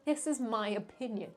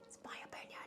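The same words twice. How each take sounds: First: Said in the usual way. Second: Hushed, voiceless aside; whispered. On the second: Acted. Vlogger introducing a controversial tier, whispered disclaimer. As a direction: whisper it as a confidential reminder.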